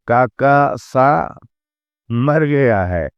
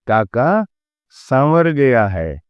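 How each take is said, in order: First: A break splits it into 'sa' and 'mar'. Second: 'Samar' is said as one unbroken word. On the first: Uncle has died. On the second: Uncle went to the village of Samar.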